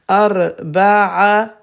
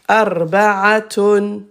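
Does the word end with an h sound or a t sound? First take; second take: t sound; t sound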